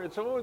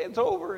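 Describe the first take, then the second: First: It's over said high with a rising over; crying comfort. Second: Over falling, high and louder through tears; It's over said high with a falling over; a louder tearful It's over; crying comfort. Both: Retold or imitated. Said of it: "and we're crying".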